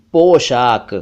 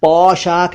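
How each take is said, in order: First: पोशाक with rounded "o"; pure "oh" in पोशाक; correct पोशाक. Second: पोशाक slowly with open "au"; mispronounced पोशाक. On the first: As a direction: say पोशाक as "poshak". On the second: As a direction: say पोशाक wrongly as "paushak". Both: Shown as a demonstration. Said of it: "पोशाक नहीं".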